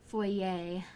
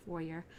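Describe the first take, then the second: First: "foyer" as "foy-YAY", no R; French-style foyer. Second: "foyer" with the R sounded at the end; anglicized foyer. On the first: Correcting herself on the word, "foyer" as "foy-YAY". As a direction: end "foyer" on an open "ay" sound. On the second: Unsure of the word while showing the shot, "foyer" as "FOY-er". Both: Shown as a demonstration. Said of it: "whichever, it doesn't matter".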